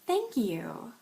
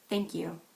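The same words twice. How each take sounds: First: It is said in a plain, sincere way. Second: It is said in a flat, understated way. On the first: The thanks is genuinely meant. "If you just wanted to say thank you" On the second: The thanks is held back. "Or understated"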